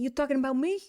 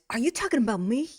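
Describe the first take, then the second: First: It is said in a New Jersey accent. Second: It is said in a plain accent.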